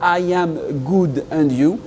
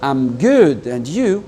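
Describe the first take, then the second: First: I am is said as two full words. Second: I am is contracted into one syllable. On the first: The speaker calls it wrong. "ça ne va pas être" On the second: The speaker calls it right. "Ça va être"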